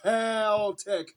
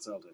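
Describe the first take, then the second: First: The word begins with a hard K sound. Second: The word begins with a soft S sound. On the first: The speaker calls it right. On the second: The speaker calls it wrong. "not Celtic"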